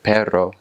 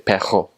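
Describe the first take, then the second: First: The R is a standard trill. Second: The R is a guttural, throaty sound.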